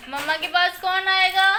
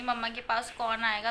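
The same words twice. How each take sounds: First: Higher, louder, slow, whiny mock crying; hammed-up weepy mother calling the child; fake crying plea. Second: Said in the usual way. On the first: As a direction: pretend to cry for the baby's attention. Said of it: "झूठी की रोने की acting". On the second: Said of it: "और मैं बोलूँगी".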